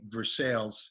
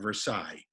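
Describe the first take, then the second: First: The name is given an affected, unusual pronunciation. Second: The name is given its usual, standard pronunciation. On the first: "that's what made me say Versailles instead of" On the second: "instead of Versailles"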